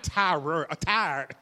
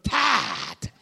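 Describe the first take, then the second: First: The word is said as ordinary 'tired'. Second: The word sounds almost like 'Tide'. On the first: Being mildly tired. "not tired" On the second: Being truly worn out. "Almost sound like tired to washing powder"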